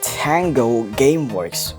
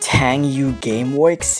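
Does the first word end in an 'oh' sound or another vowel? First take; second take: oh sound; other vowel. First: The first word ends in an 'oh' sound. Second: The first word ends in a vowel other than 'oh'. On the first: The speaker calls it right. "It's pronounced Tango Gameworks" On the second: The speaker calls it wrong. "how did you mess that up with your terrible pronunciation?"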